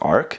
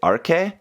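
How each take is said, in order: First: The name is said in an English style. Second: The name is said in a Japanese style. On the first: The speaker calls it right. "maybe it's probably actually pronounced Arc" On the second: The speaker calls it wrong. "the Japanese pronunciation is actually Arke"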